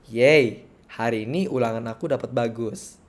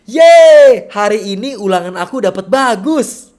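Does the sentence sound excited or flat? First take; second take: flat; excited. First: It is said with flat, unexcited intonation. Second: It is said with lively, excited intonation.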